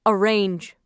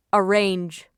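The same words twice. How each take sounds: The two takes are said the same way.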